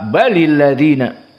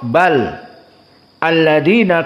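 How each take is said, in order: First: Bal joins the next word with an added i. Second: Bal ends in a stop before the next word. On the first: "karena bersambung" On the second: "kalau waqaf bal"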